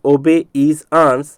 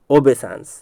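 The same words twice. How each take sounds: First: "obey is dance" as separate words; broken into parts. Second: Said in the usual way. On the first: Shown as a demonstration. Teacher explaining why he splits it, broken into parts. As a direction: pause between each part of "obey is dance". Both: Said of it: "इसलिए इसको तोड़ करके बता रहा हूँ".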